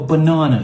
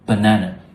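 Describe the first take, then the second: First: The word is said in a British accent. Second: The word is said in a Nigerian accent. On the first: The speaker calls it wrong. "as the Brits would say. They say" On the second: The speaker calls it right. "The correct way to say this is banana. ... so the Nigerians, you got this right"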